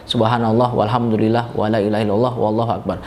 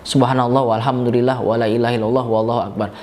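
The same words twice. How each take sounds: No difference in how they are said.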